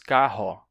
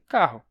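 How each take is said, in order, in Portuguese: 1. A palavra termina em O aberto. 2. A palavra termina em som de U. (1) "A gente não diz" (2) "e sim; ele ficaria um simples U"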